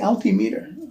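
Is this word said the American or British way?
British. The word has British-style syllable stress. "why do you say altimeter?"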